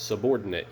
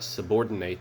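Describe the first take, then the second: First: The last syllable is reduced, like 'it'. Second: The last syllable is full, like 'ate'. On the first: It names a person of lower rank. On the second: It means to put someone under your control.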